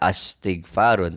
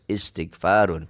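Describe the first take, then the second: First: The word begins with an a vowel. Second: The word begins with an i vowel. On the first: The speaker calls it wrong. "Tidak astighfarun" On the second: The speaker calls it right. "tapi harus istighfarun"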